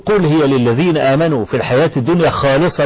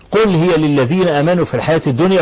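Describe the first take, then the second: First: There is no pause after 'الدنيا'. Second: There is a pause after 'الدنيا'. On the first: Blessings in this worldly life are pure. The speaker calls it wrong. "لا ما فيش نعمة خالصة أبدا" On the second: Blessings are pure only on the Day of Resurrection. The speaker calls it right. "وتقف وبعدين تقول خالصة يوم القيامة"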